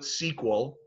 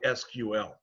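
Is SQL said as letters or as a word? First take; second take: word; letters. First: It is said as the single word sequel. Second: It is said as three separate letters. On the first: "Some people call it S Q L, S E Q U E L" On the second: "Some people just call it S Q L"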